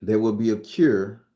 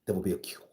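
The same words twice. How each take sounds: First: Louder, stress on "will": There WILL be a cure; emphatic declaration. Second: Quiet. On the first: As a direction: proclaim it, leaning on "will". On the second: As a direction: say it softly, almost to yourself. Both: Shown as a demonstration. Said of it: "y'all gotta mark my words".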